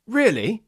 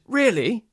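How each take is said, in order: First: The voice rises and then falls. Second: The voice rises and then falls.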